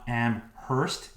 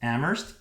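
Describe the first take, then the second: First: The H sound is clearly pronounced. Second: The H sound is left silent. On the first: The speaker calls it wrong. "It's not Amherst" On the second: The speaker calls it right. "The H is silent"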